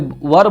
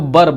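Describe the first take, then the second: First: The word starts with a v sound. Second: The word starts with a b sound. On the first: This is the standard form. "ऐसे वर बोला जाता है" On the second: This is the rustic village form. "अगर शुद्ध देहाती में बोले तो बर बोलते हैं"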